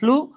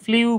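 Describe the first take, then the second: First: The vowel is a plain oo, no glide. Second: A y-glide comes before the vowel. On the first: The speaker calls it right. "এটা উচ্চারণ হচ্ছে ফ্লু" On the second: The speaker calls it wrong. "আমরা অনেকে এটাকে ফ্লিউ বলি"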